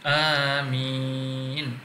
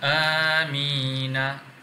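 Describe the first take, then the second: First: The final letter is said without a vowel. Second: The final letter is said with a vowel. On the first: The reader stops at this word. "kita matikan dia jadi Amin. Huruf nun dimatikan" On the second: The reading continues without stopping. "Asalnya Aminah"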